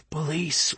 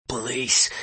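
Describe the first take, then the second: First: Fainter, airy hiss, barely voiced; hiss of air. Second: Barely there, wheezy voice; wheezing. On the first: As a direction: push the word out as a hiss. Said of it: "it wasn't even a whisper, only a hiss of air". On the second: Acted. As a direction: wheeze the word out, hardly voiced. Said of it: "His voice was hardly there. It was all wheeze and whistle".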